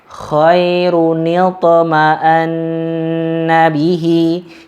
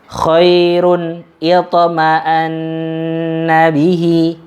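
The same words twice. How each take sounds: First: The tanwin links forward with a short 'ni' sound. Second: The tanwin and next word stay unlinked.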